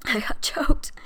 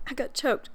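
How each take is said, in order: First: Hoarse whispered apology after a cough; choked whisper. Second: Said in the usual way. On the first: Real, not acted. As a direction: whisper it through a tight throat.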